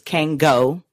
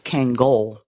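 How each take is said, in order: First: The final L sound is dropped. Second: The final L sound is clearly pronounced. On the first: "like you don't even acknowledge that the L's there" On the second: "like Angola"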